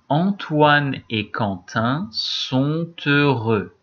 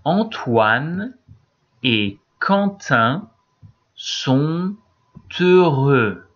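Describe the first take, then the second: First: The sentence is read at a faster pace. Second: The sentence is read at a slower pace.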